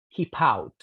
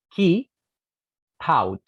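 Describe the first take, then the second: First: "Keep out" with the p moved to "out"; linked. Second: "Keep" loud and high, pause, then "out"; separated. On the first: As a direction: join as "kee-pout". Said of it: "el sonido p pertenece a la segunda". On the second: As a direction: split "Keep" and "out" apart. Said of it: "Debiera ser algo así". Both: Shown as a demonstration.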